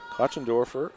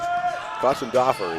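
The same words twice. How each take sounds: First: The name is pronounced just as it is spelled. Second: The name is pronounced differently from its spelling. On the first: The speaker calls it wrong. "as it's spelled" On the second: The speaker calls it right. "he says"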